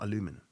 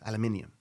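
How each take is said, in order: First: The word is said with four syllables. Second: The word is said with five syllables. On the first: The speaker calls it wrong. "you guys in America say it wrong" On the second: The speaker calls it right. "It's aluminium"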